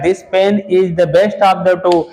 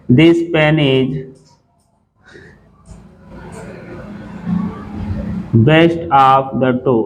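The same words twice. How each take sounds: First: "this pen is the best of the two" read out slowly and clearly, still slow but less so; quoting the sentence. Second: Very slow, word by word, reading "this pen is best of the two" aloud; dictated slowly. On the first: Teacher quotes the wrong exam sentence, slow and clear. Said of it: "कह रहा". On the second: Teacher reads the exam sentence to students, very slow. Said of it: "यहाँ लिखा है". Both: Shown as a demonstration.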